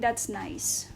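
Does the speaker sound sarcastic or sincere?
sarcastic. It is said in a sarcastic, doubtful tone. The thing is probably not nice at all.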